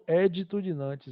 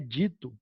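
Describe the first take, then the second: First: The stress is on the first syllable. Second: The stress is on the second syllable. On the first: "mas eu falo editudinantes mesmo" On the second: "dando eh, a ênfase no i"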